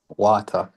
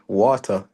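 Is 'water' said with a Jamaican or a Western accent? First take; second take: Jamaican; Western. First: It is said with a local Jamaican pronunciation. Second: It is said with a westernized pronunciation. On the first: This is how the average person there says it. "they would make fun of me because I couldn't say water" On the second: This is the only way the speaker could say it. "could only say water"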